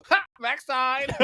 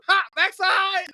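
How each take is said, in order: First: Mom's mocking laugh. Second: Higher, slow, louder teasing "Ha, backside!"; mom's mocking laugh. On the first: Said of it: "she goes". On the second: Imitating his mom teasing him about the backside, higher and slow. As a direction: drag it out like a mom cackling at her own joke. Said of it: "picturing my mom going".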